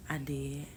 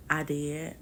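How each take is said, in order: First: Breathy whispered confession; whispering. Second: Said in the usual way. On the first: Real, not acted. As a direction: whisper it like a secret. Confessing aside, then repeats.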